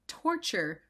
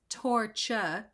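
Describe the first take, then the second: First: The word is said carefully with a clear r. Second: The word is slurred, ending in a soft uh.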